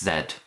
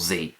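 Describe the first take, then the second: First: The letter is said as British zed. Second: The letter is said as American zee.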